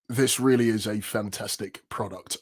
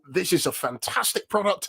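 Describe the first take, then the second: First: It is said in a flat monotone. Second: It is said with lively, varied pitch.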